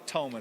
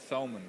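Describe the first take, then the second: First: The name begins with a plain T sound. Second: The name begins with a TH sound. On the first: This is the local pronunciation. "with a T H, but with the T pronounced" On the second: This is how someone from England would say it. "if you're from England, you're going to say"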